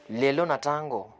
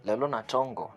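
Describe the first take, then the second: First: "tango" said with an A in the first syllable; the slip "tango", with A for O; wrong vowel. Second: "tongo" said with an O in the first syllable; careful "tongo", with O rather than A; corrected vowel. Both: Shown as a demonstration. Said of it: "not tango".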